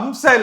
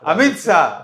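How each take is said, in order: First: The name is squeezed into two syllables, 'Amsa'. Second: The name is said in full as 'Amit Shah'. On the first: It sounds like some unknown woman's name. The speaker calls it wrong. "அம்சா அம்சான்னு சொல்லாம" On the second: It names the intended person properly. The speaker calls it right. "அது அம்சா இல்லப்பா, அமித்ஷா"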